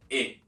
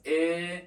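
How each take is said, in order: First: E said short, as with accent aigu. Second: E drawn out long, as with accent grave; elongated E. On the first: Teacher contrasting accent aigu with grave, E kept short. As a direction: cut E short, without drawing it out. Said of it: "but accent aigu as E". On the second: Teacher showing learners the accent grave, E elongated. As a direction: hold the vowel in E longer. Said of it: "accent grave should be pronounced more elongated". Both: Shown as a demonstration.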